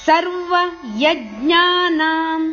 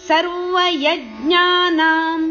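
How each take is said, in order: The two takes are said the same way.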